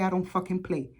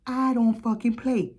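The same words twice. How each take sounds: First: Said in the usual way. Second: Slow, weighted "I don't fucking play", stress on I; emphatic. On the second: Real, not acted. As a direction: lean into every word, slowly. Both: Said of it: "You better go watch that video".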